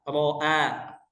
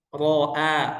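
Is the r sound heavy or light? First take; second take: heavy; heavy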